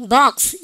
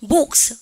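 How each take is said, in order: First: "box" with an open ah vowel; American O. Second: "box" with a rounded o vowel; British O. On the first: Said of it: "미국 애들 뭐야?". ("box"를 박스로) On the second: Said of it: "영국 애들 뭐야?". ("box"를 복스로) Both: Shown as a demonstration.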